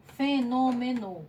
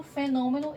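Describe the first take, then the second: First: "Fenômeno" slowly divided as fe-nô-me-no; split into syllables. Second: Said in the usual way. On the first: Shown as a demonstration. Teacher showing pupils the division, "Fenômeno" in slow separate syllables. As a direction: sound out "Fenômeno" one syllable at a time. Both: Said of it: "separe essas palavras em sílabas".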